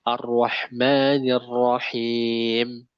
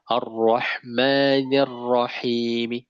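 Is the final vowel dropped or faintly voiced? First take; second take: dropped; faint. First: The last sound ends with no vowel. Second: The last vowel is voiced faintly and briefly. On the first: "sering kita matikan" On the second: "dihidupkan yang terakhirnya. Cuma dia dua per tiga harokat saja"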